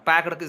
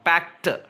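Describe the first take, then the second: First: The word ends with a d sound. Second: The word ends with a t sound. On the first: The speaker calls it wrong. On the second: The speaker calls it right.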